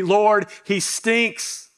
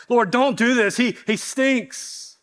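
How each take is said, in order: First: Blunt complaint. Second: Higher, whiny mock plea from Martha, voice pulled thin; pleading protest. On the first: Retold or imitated. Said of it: "It really should be". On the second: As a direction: beg the Lord to stop, slowly. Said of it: "imagine that".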